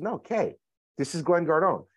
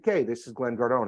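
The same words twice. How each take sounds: First: High, insistent "No, Kay" leaning on "Glenn Gardone"; insisting. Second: Said in the usual way. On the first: Retold or imitated. Insisting to a doubting caller that it really is him, emphatic. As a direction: lift "No" high and press "this is Glenn Gardone" as a correction.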